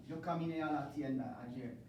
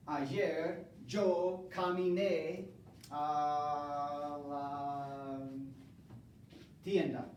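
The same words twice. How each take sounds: First: Said in the usual way. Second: Slow model sentence. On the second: Shown as a demonstration. Teacher modelling preterite for the class, slowly drawn out. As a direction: draw each word out for learners.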